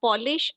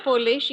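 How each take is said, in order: First: "polish" as in shining furniture, POL-ish; short open first vowel. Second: "Polish" as from Poland, POLE-ish; long O first vowel. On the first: Teacher contrasting homographs for students, "polish" said POL-ish. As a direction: say "polish" with the O of "doll". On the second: Teacher contrasting homographs for students, "Polish" said POLE-ish. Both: Shown as a demonstration. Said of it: "but pronunciation again different हो रहा है".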